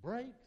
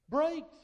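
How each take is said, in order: First: Said in the usual way. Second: Shouted out big and high; Brakes. booming the second time; loud. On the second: Acted. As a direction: bellow the answer to the crowd. Repeats answer, much louder.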